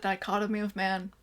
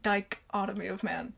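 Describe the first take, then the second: First: The first syllable is said without stress. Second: The first syllable is said with heavy stress.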